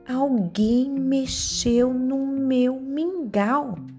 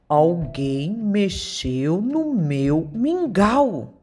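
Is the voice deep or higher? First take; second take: higher; deep. First: It is said in a higher, lighter voice. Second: It is said in a very deep voice.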